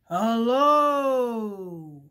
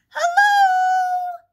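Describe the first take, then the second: First: It is said in a low, deep voice. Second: It is said in a high voice.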